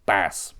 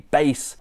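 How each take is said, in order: First: The vowel sounds like the one in 'cat'. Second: The vowel sounds like the one in 'face'. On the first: The speaker calls it right. "what they're trying to say is, of course, bass" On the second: The speaker calls it wrong. "when they say base"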